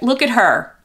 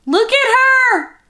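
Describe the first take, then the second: First: Said in the usual way. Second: High, slow coo at the doll. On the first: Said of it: "doll baby talk". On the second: Real, not acted. To the doll she adores, a high slow coo. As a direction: melt over the doll, drawn out.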